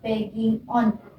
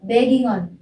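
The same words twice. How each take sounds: First: The two words are said separately. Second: The final g runs into the next word. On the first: The speaker calls it wrong. "jangan dibaca begging on" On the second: The speaker calls it right. "tinggal kalian gabungin jadi bacanya begging on"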